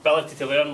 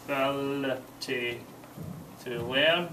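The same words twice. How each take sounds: First: Said in the usual way. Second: Slow northern English Ability to learn with a rise on learn; slow dictation. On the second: Shown as a demonstration. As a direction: say Ability to learn slowly for note-taking. Teacher dictates answer slowly.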